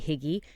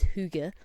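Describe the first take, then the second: First: It is said with a North American pronunciation. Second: It is said with an attempted Danish pronunciation. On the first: "You'll hear North Americans say higgy" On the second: "I always pronounce it wrong"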